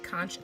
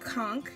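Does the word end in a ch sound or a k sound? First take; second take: ch sound; k sound. First: The word ends with a ch sound. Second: The word ends with a hard k sound. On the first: The speaker calls it wrong. "Some people say conch. That's wrong" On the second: The speaker calls it right. "You don't pronounce the H"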